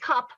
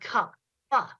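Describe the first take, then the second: First: The word ends plainly without an extra vowel. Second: The final consonant is exaggerated with an added vowel. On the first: "she switched back and forth between saying cup and cup pa" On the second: "Stretch out and enunciate the consonants"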